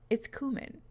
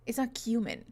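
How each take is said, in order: First: "cumin" said as KOO-min, no y sound; coomin pronunciation. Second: "cumin" said as KYOO-min, with a y glide; kyoomin pronunciation. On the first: Streamer mocking chat's spelling, KOO-min. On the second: Streamer correcting chat, KYOO-min. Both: Shown as a demonstration. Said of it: "We do not say coomers here".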